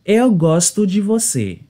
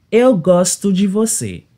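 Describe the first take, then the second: No difference in how they are said.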